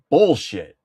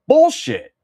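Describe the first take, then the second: First: Said in the usual way. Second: High mock squeal of Bullshit. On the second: Rejecting a history fact, high squeal. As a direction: squeak out Bullshit. in fake outrage.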